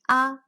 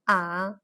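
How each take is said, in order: First: The pitch stays level and flat. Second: The pitch dips low, then rises again. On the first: "The first tone, also known as flat tone" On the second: "The third tone, also known as inflection tone"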